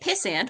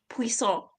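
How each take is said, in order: First: It sounds like the insult pissant. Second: It sounds like the name of a food. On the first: It sounds like an insult. "which obviously is not complimentary" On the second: It sounds like a dish. "which sounds like some sort of food"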